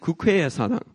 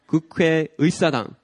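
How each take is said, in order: First: No 'ui' syllable is said before 'sadang'. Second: A 'ui' syllable is said before 'sadang'. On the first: The speaker calls it wrong. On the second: The speaker calls it right.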